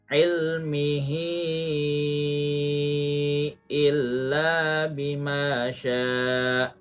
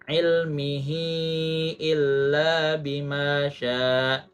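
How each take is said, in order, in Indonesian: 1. Vokal akhir pada ilmihi dibaca panjang. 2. Vokal akhir pada ilmihi dibaca pendek. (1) "lima harokat" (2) "Jangan membacanya dua harokat. ... Itu salah"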